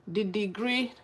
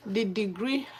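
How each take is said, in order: Both takes have the same delivery.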